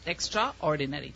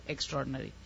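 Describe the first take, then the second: First: "Extraordinary" split as extra plus ordinary, every syllable sounded; said as two words. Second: "extraordinary" run together as ex-TROR-din-ry; quick, merged "extraordinary" as one word; usual merged pronunciation. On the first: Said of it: "two words, even though we say". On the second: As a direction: swallow the middle A of "extraordinary". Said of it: "even though we say extraordinary". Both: Shown as a demonstration.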